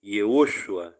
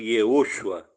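First: The name is said with four syllables. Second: The name is said with four syllables.

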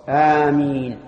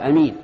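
First: The first vowel is long. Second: The first vowel is short. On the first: The speaker calls it right. "والمد هو الصواب" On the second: The speaker calls it wrong. "ويجوز قص الهمزة"

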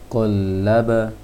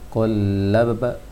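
The two takes are said the same way.

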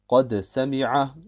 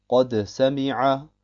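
Both takes have the same delivery.

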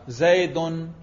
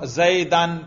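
First: The word ends in -un. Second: The word ends in -an. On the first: The noun is in the nominative case. "رفع" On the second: The noun is in the accusative case. "نصب"

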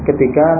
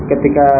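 Both takes have the same delivery.

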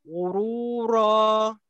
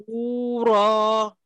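The two takes are said the same way.

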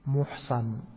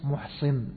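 First: The word is voiced as a passive participle. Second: The word is voiced as an active participle. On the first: "فيكون الاسم منه إيش؟" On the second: "فيكون الاسم منها إيش؟"

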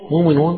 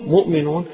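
First: It is said without a glottal stop after mu. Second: It is said with a glottal stop after mu. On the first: This is one traditional reading of the word. "مؤمنون قراءة ورش عن نافع" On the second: This is the other readers' way of reading the word. "قراءة غيرهم من القراءة يقول مؤمنون"

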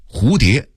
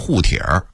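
First: It is said in standard Mandarin. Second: It is said with an old Beijing r-colored ending.

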